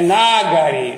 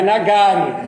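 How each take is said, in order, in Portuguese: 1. A acentuação cai antes da penúltima sílaba. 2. A acentuação cai na penúltima sílaba. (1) "o Ga é lago" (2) "não é Nagari"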